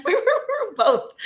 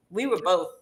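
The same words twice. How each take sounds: First: Higher and slower, we were both through a laugh. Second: Said in the usual way. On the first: Real, not acted. Teacher to host, cracking up at the memory. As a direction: giggle your way through it.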